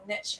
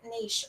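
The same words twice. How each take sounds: First: The word is said in the American way. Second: The word is said in a non-American way.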